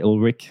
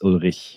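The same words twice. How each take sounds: First: The name is said with English pronunciation. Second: The name is said with its native pronunciation. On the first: It is made easy for English speakers. "I like to make it easy for English-speaking hosts, so I say Ulrich" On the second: This is the name's actual pronunciation. "but actually not German, it's Ulrich"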